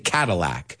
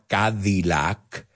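First: The middle consonant sounds close to T. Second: The middle consonant is a clear D. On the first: "we say Cadillac. Los americanos, la D y la T, parecidas" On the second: "we all know the car"

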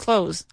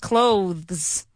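First: The th sound is dropped, sounding like close. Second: The th sound is clearly pronounced before the s. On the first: This is how everyone says it. The speaker calls it right. "Everybody says clothes" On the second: Almost no one says it this way. The speaker calls it wrong. "Nobody says clothes"

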